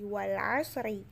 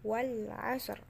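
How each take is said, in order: First: The phrase ends with a vowel. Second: The phrase ends with a consonant. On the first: This is the form read without stopping. The speaker calls it wrong. "Jadi bukan lagi wal asri" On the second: This is the form used when stopping. The speaker calls it right. "tapi menjadi wal asr"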